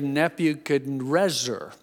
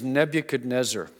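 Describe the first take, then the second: First: The name is said in an altered, Aramaic-like form. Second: The name is said in its familiar common form. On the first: This is closer to how the king said it himself. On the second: This is the form later altered by others.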